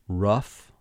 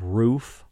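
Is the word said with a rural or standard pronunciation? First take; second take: rural; standard. First: It is said with a rural local pronunciation. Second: It is said with a standard, non-rural pronunciation. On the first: "rural pronunciations that I would try" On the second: "Instead of roof"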